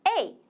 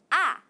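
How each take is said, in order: First: The letter is said as 'ay'. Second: The letter is said as 'ah'. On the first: This is the letter's name. "이 친구 이름 따라해보자" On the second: This is the sound the letter makes. "소리를 낼 때 아 하는 소리가 나"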